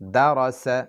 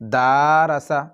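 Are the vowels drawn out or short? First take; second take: short; drawn out. First: The vowels are kept short. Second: The vowels are drawn out long. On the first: The speaker calls it right. "তিনটি হরফের মধ্যে জবর রয়েছে তাই একটিও লম্বা করবেন না।" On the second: The speaker calls it wrong. "দারাসা এরকম হবে না"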